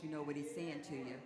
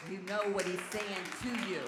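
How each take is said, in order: First: Said in the usual way. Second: Loud, punched-out preaching; raised-voice insistence; emphatic repeat. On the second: Real, not acted. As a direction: drive every word home to the congregation.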